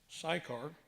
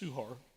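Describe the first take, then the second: First: The name is said with an American pronunciation. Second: The name is said closer to its original pronunciation. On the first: The speaker calls it wrong. "We Americans pronounce it Sychar" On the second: The speaker calls it right. "it's more closely pronounced Suhar"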